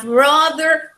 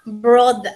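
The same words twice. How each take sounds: First: BROTHER with the final R sounded, American-style accent; BROTHER, rhotic accent example; accent contrast. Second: BROTHER with the final R dropped, British-style accent; accent contrast. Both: Shown as a demonstration. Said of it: "That is accent".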